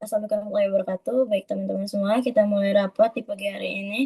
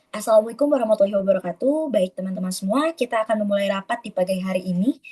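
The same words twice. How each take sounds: First: Rushed, fast and flat with no melody; no intonation. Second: Formal greeting with a lively, varied melody. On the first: Teacher shows students a flat, hurried meeting opening. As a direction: rattle it off in one flat tone. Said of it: "misalnya nggak ada nadanya". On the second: Teacher shows a well-toned formal meeting opening. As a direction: open the meeting with a pleasant rise and fall. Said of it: "Enak kan kedengerannya?". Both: Shown as a demonstration.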